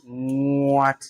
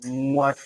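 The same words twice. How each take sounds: First: "What" with a long, drawn-out opening; elongated word. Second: Said in the usual way. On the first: Shown as a demonstration. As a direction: stretch the start of "What" before releasing it. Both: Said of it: "if you are elongating this one".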